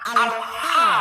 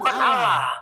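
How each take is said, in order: First: The word is said as al then ha. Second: The word is said as one word ending lah. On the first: The speaker calls it right. "Ketika dieja al ha" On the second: The speaker calls it wrong. "bukan Allah"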